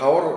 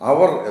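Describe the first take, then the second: First: The word begins with an h sound. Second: The word begins with a vowel sound. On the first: The speaker calls it wrong. "ഹവർ എന്ന് നമ്മൾ പറയേണ്ടതില്ല" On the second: The speaker calls it right. "അതിൻ്റെ ഉച്ചാരണം അവർ എന്നാണ്"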